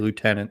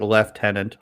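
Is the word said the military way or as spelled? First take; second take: as spelled; military. First: It is said the way it is spelled. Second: It is said in the military pronunciation. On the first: This is the usage of ordinary people. "people are just going to say lieutenant the way it sounds" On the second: This is the usage of the military. "Only in the military would you call it lieutenant"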